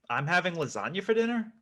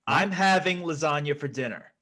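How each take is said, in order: First: It is said as a question. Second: It is said as a demand.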